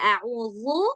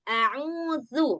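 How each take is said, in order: First: The z-like consonant is heavy and thick. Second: The z-like consonant is light and thin. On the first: The speaker calls it wrong. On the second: The speaker calls it right.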